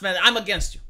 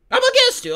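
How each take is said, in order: First: Said in the usual way. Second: Much higher and louder, "against" hit hard; emphatic shout. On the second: Real, not acted. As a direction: belt it out like a battle cry. Repeats his stance, shouted.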